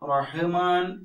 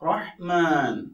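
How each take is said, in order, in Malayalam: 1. h-ക്ക് ശേഷം ഒരു അധിക സ്വരാക്ഷരം ഉച്ചരിക്കുന്നു. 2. h ഒരു സ്വരാക്ഷരവുമില്ലാതെ പിടിച്ചു നിർത്തുന്നു.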